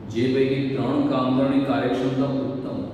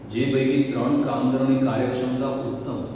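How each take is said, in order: Both takes have the same delivery.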